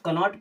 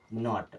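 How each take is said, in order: First: The k at the start is sounded. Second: The k at the start is silent. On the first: The speaker calls it wrong. "कनॉट नहीं" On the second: The speaker calls it right. "के हमारा silent हो जाता है"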